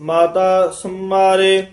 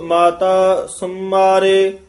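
Both takes have the same delivery.

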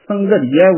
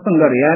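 First: The ending is split into separate 'ri' and 'ya'. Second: The ending is run together as one 'ria' syllable. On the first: The speaker calls it right. "ਉਸੇ ਨਿਯਮ ਅਨੁਸਾਰ ਇਸ ਨੂੰ ਸੰਘਰੀਆ ਉਚਾਰਨ ਕਰਨਾ ਹੈ" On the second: The speaker calls it wrong. "ਇਸ ਨੂੰ ਸੰਘਰਿਆ ਨਹੀਂ ਬੋਲਣਾ"

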